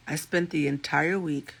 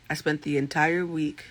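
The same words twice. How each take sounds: The two takes are said the same way.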